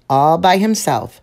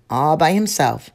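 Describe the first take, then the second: No difference in how they are said.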